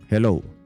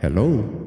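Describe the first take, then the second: First: The voice sounds dry with no added effects. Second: The voice has reverb added to it. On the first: "O di ba flat, flat na lang yung boses mo" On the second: "gamitin mo itong reverb ng sound card"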